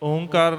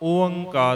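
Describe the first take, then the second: First: A single nasalized o comes before kar. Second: Separate o and a vowels come before the nasal. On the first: The speaker calls it wrong. "ਓਂਕਾਰ ਨਹੀਂ ਹੈ" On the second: The speaker calls it right. "ਓਅੰਕਾਰ ਹੈ"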